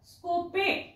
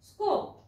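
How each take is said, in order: First: The word ends with an extra vowel sound. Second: The word ends on the p sound. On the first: The speaker calls it wrong. "स्कोपे असं म्हणायचं नाही" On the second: The speaker calls it right. "ईला शेवटच्या silent ठेवा"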